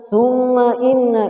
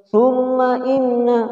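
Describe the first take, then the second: No difference in how they are said.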